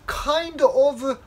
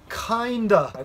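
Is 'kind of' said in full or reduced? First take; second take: full; reduced. First: Both words are said clearly and separately. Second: The words are said fast and run together.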